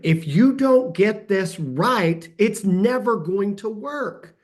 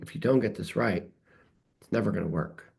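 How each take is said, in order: First: The voice sounds stern and firm. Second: The voice sounds mild and less stern.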